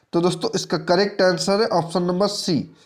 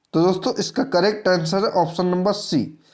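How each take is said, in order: Both takes have the same delivery.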